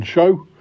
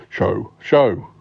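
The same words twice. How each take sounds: First: "show" lifted at the end like a question; wrong emphasis on show. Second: "show" said twice, dropping in pitch; repeated show. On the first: Host announcing the podcast title, "show" oddly stressed upward. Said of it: "I put the wrong emphasis on the word show". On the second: Host correcting the title's emphasis, "show" repeated with a fall. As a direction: try "show" again, firmer on the repeat. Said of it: "I repeated it and, and repeated it again". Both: Acted.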